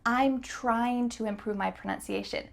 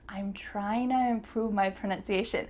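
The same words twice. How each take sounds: First: Trying to is said in full, word by word. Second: Trying to is reduced and linked into tryna. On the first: "Is this the fastest way to say this sentence? Nope" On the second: "The word to is going to change to a. Trying to, uh"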